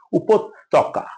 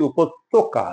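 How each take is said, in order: First: উপত্যকা with doubled t and open aw; উপত্যকা as "upot-tawka"; correct pronunciation. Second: উপত্যকা said "upot-toka", closed o; উপত্যকা with o-kar on ত; common mispronunciation. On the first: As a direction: stretch the t in উপত্যকা, "upot-tɔka". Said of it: "তয়ে কোনো ওকার নাই". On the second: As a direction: round the ত্য of উপত্যকা to "to". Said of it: "আমরা ভুল করে". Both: Shown as a demonstration.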